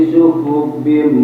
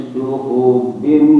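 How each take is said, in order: Both takes have the same delivery.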